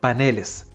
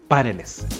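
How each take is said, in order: First: The stress is on the middle syllable. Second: The stress is on the first syllable. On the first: The speaker calls it right. "en plural deja de ser una palabra aguda y pasa a grave" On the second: The speaker calls it wrong. "pero nunca a esdrújula, de ahí que es incorrecto decir"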